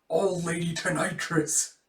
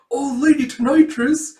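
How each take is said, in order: First: Said in the usual way. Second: High, loud shocked question; alarmed echo. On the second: Acted. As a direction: cry out "Old Lady Tonitrus?" in alarm. Students echo nickname in alarm.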